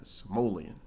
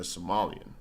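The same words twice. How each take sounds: First: Somalian said "suh-MOH-lee-un"; Somalian with long O. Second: Said in the usual way. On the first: Shown as a demonstration. Streamer telling two peoples apart, Somalian as "suh-MOH-lee-un". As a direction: say Somalian with "mole" in the middle. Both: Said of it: "that's different than a Somalian".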